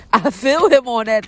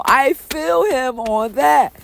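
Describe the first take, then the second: First: Said in the usual way. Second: "I feel him on that" drawn out slow and high, weight on "that"; slow heartfelt emphasis. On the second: Real, not acted. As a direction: stretch out "I feel him on that", lean on "that". Slow emphatic repeat of the line.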